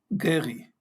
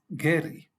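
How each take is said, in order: First: The R is made in the throat. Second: The R is made with the tongue. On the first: The name is said in Hebrew. "la R con eh, la garganta" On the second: The name is said in Spanish. "R con la lengua"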